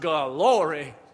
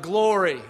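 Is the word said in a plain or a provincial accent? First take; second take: provincial; plain. First: It is said in a folksy provincial accent. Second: It is said in a plain, standard accent. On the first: "which is pronounced glory" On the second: "They use words like glory"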